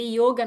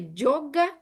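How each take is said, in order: First: The word starts with a Y sound. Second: The word starts with a J sound.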